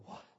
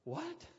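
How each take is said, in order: First: Said in the usual way. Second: Far higher, stunned what; shocked what. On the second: Retold or imitated. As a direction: let the second what fly up in disbelief.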